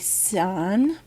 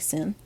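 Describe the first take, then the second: First: The vowel is a long 'eye' sound. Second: The vowel is a short 'ih' sound. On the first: The speaker calls it right. "the abbreviations are going to be sine, but it's without the E" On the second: The speaker calls it wrong. "Please do not say sin"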